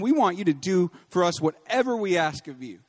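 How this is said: The line is read in a bossy, demanding tone.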